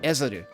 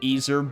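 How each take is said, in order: First: It is said as three syllables, e-ze-ru. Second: It is said as two syllables, ee-zer. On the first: "in the Japanese it's like Ezeru" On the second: "I've been pronouncing it Easer"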